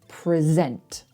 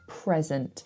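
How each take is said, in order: First: The stress is on the second syllable. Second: The stress is on the first syllable. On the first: It is a verb meaning to give formally. "We put the stress on the second syllable if you're using it as a verb" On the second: It is a noun meaning a gift. "So if it's the noun, the thing, we put the stress on the first syllable"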